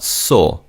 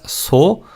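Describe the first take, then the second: First: "so" with a lighter Korean S; Korean siot sound. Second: "so" with a strong, hissed English S; wrong English-style S. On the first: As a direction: soften the S at the start of "so". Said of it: "in the first syllable is not pronounced as". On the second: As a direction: demonstrate "so" with a hard sibilant. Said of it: "is not pronounced as so". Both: Shown as a demonstration.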